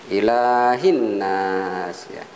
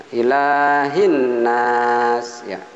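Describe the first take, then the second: Both takes have the same delivery.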